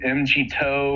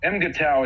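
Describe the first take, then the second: First: The letter G is spoken, ending in 'toe'. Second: The middle is 'ga', ending in 'tau'. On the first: This is how others say it. "I've heard it said" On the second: This is how the speaker always says it. "is how I've always"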